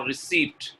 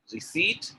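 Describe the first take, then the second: First: RECEIPT with the p sounded; wrong pronunciation. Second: RECEIPT with a silent p; correct pronunciation. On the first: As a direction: say RECEIPT as "ri-SEEPT". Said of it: "correct answer is first one". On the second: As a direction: say RECEIPT as "ri-SEET". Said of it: "Receipt is the correct one". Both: Shown as a demonstration.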